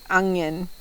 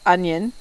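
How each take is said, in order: First: It uses an unusual slang pronunciation. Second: It uses the usual standard pronunciation.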